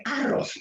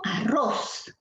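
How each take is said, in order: First: "arroz" stressed on the first syllable, A-rroz; wrong stress on A. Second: "arroz" stressed on the last syllable, a-RROZ; stress on final syllable. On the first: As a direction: punch the opening A of "arroz". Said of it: "Si el acento fuera en la sílaba A". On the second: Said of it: "tú dirás en la sílaba ros". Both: Shown as a demonstration.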